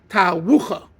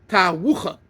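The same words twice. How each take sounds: No difference in how they are said.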